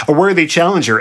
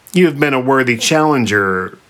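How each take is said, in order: First: "worthy" punched high; pointed emphasis on "worthy"; emphatic restart. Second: Said in the usual way. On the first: A narrator's reading. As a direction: hit "worthy" with raised pitch, grandly. Sphinx restarts her speech more grandly.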